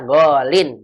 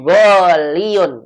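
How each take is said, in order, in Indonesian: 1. Kata itu berakhir dengan bunyi '-lin' yang pendek. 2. Kata itu berakhir dengan bunyi '-liyun' yang lebih panjang. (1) "Ingat ya, golin. Begini" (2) "Jangan goliun. Itu salah"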